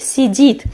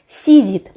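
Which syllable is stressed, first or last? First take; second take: last; first. First: The stress is on the last syllable. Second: The stress is on the first syllable. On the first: "the stress will be on the last syllable" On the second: "we put the stress on the first syllable and it sounds like"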